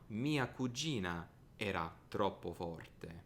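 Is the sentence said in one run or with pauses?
pauses. It is broken into groups with pauses.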